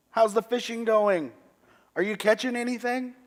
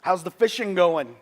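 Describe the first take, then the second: First: Even higher, louder teasing call from afar; calling from the shore. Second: High, loud friendly call across the water; calling from the shore. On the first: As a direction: shout it playfully across the water. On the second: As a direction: call out to someone far off on the shore. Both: Retold or imitated. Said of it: "I hear a voice from the shore say".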